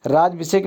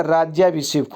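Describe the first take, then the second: First: राज्याभिषेक cut to "raaj-vishek"; wrong form. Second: राज्याभिषेक with a full "raaj-yaa"; correct form. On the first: Teacher showing the mistake, राज्याभिषेक as "raaj-vishek". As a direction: drop the "ya" from राज्याभिषेक. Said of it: "राज्याभिषेक नहीं होता". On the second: Teacher correcting it, राज्याभिषेक with clear "yaa". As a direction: sound every syllable, "yaa" included, in राज्याभिषेक. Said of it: "राज्याभिषेक होता है". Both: Shown as a demonstration.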